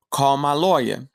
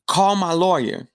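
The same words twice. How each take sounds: First: Whispered. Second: Firm demand. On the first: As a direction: call my lawyer, breathed in a whisper. Prisoner repeats demand, whispered. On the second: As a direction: call my lawyer, raised and higher. Prisoner demands guard call lawyer. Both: Retold or imitated.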